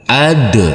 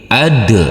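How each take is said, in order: First: The final consonant ends with a bouncing release. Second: The same.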